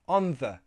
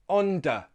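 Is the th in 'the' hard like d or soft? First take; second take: soft; hard. First: The th is a soft breathy sound. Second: The th is a hard d-like sound. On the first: The speaker calls it right. "a soft sound" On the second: The speaker calls it wrong. "with a hard sound"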